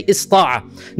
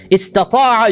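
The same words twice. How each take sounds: First: Ista'a with the middle ta left out; shortened form. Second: Istata'a with both t-sounds, is-ta-TA-a; full form. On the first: Teacher offering the easier option, shortened ista'a. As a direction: say ista'a as is-TA-a, one t-sound. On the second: Teacher repeating the contrast for students, full Istata'a. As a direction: keep the middle ta in Istata'a. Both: Shown as a demonstration. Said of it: "you can say ista'a".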